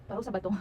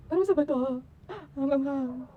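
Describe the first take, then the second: First: Said in the usual way. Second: High, loud wail about the spice; loud cry of spicy pain. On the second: Real, not acted. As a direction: yelp it out in burning pain.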